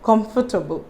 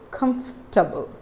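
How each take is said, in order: First: The word has four syllables with a full 'for'. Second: The word has three syllables, dropping the 'or'. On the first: The speaker calls it wrong. "It is wrong" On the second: The speaker calls it right. "You have to silent the letter O here"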